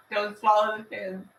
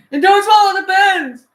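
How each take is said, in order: First: Said in the usual way. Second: Much higher, louder warning. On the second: Real, not acted. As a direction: call it out sharply.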